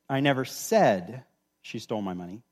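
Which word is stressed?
said. The stress is on "said".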